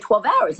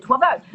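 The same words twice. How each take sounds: First: Said in the usual way. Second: Higher, mildly incredulous repeat; disbelieving echo. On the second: Retold or imitated. Passenger hearing how long the dive lasts, mild disbelief. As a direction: echo it back in mock disbelief. She echoes the answer in disbelief.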